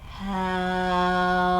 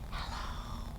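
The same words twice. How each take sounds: First: It is said very slowly. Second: It is said very quietly.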